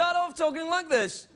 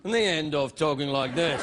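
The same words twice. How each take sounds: First: High-pitched English presenter lilt; English TV presenter opening. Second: Dropped low English presenter cadence; English TV presenter ending. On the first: Host mocking British TV presenters, sentence pitched high at the start. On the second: Host mocking British TV presenters, sentence ending pitched low. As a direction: let the presenter voice sink low. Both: Shown as a demonstration. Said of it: "talk like an English television presenter".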